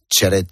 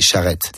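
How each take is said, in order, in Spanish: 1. El nombre se pronuncia con pronunciación española. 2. El nombre se pronuncia con pronunciación francesa. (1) "Pero en español me dice Charret" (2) "En francés se dice Charret"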